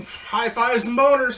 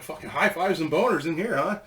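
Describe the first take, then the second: First: "High fives and boners" said high, loud and slow; mock celebratory chant; gleeful catchphrase. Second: Said in the usual way. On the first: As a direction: savour the catchphrase like a toast. Catchphrase said with glee.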